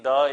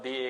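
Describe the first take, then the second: First: The word ends in a short uh vowel. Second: The word ends in a long ee vowel. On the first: "बहुत लोग इसको द बोलते हैं" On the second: "बहुत लोग इसको दी बोलते हैं"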